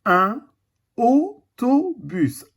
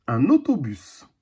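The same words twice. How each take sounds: First: Autobus drawn out very slowly; slow teaching word. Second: Said in the usual way. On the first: Shown as a demonstration. A teacher showing the class autobus, very slowly. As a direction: stretch each syllable of autobus. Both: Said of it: "Le son O".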